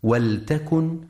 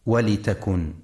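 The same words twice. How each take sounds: First: ولتكن with silent lam, waltakun; correct reading. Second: ولتكن with kasra on the lam, walitakun; the mistaken ولتكن, lam given an i vowel; wrong reading. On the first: Teacher showing listeners the right reading, ولتكن as waltakun. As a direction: say ولتكن with no vowel after the lam. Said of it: "لسكون اللام وعدم كسرها". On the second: Teacher warning listeners of the wrong reading, ولتكن as walitakun. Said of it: "فلا يقرأ". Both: Shown as a demonstration.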